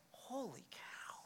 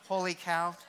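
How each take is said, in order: First: Slow, barely audible whisper of amazement; hushed, drawn-out awe; awestruck whisper. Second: Said in the usual way. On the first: Acted. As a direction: whisper it as if stunned by what you read. Acts reader's awe at the Bible.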